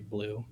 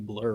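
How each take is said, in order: First: The vowel sounds like the one in 'blue'. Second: The vowel sounds like the one in 'blur'. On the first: "I still say blue even though it's the other one" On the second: "the actual like uh pronunciation of that is actually blur"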